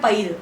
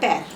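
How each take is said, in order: First: The vowel is a full 'ai' sound. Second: The vowel is reduced, not a full 'ai'. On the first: The speaker calls it right. "इसका शुद्ध उच्चारण है पैर" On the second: The speaker calls it wrong. "हम बोलते क्या है लेमन भाषा में"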